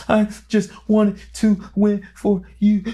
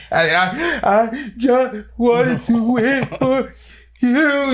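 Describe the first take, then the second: First: Slow, high, choked-up voice, almost crying; a son near tears, breaking up as he speaks; tearful plea. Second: Stammering, very slow, much higher, breaking down; the same plea falling apart into sobs; broken sobbing. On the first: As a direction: plead through tears to your father. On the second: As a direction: sob it out word by word. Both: Retold or imitated. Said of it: "frantically crying".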